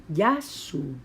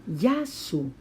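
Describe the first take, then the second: No difference in how they are said.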